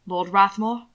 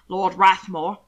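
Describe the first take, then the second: First: "Lord Rathmore" with a questioning rise; startled question. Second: "Lord Rathmore" stated firmly with finality; firm statement. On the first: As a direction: echo "Lord Rathmore" as a mildly startled query. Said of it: "Hannibal asked, startled to hear". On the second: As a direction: announce "Lord Rathmore" as a settled fact. Names him; the listener then queries it. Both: A narrator's reading.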